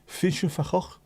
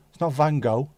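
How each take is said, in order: First: "Vincent van Gogh" with an f sound and throaty g sounds; Dutch way. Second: "Van Gogh" said the English way with a hard g and a long o; wrong way, plain. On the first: Showing chat how the Dutch say "Vincent van Gogh". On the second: Showing chat the English reading of "Van Gogh". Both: Shown as a demonstration.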